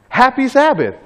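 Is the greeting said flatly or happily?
happily. The greeting is said brightly and happily.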